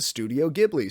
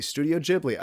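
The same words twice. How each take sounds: First: Ghibli with a hard G, as in "give". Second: Ghibli with a soft G, like "jib". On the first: Unsure podcaster tries one way to say it, hard-G Ghibli. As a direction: say Ghibli as GIB-lee. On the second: Unsure podcaster offers the other way, soft-G Ghibli. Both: Shown as a demonstration. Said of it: "I don't know how you're supposed to say it".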